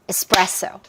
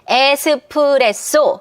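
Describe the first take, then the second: First: The second syllable carries the stress. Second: All syllables get an even, equal beat. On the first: The speaker calls it right. "따다라 요 리듬이에요. 바나나 리듬이에요" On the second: The speaker calls it wrong. "따다다다다 정박이 아니라"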